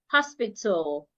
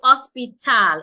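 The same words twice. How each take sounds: First: The final syllable has a reduced, unheard A vowel. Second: The final syllable has a full, clear A vowel. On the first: The speaker calls it right. "The A that would not be heard" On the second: The speaker calls it wrong. "I would not say hospital"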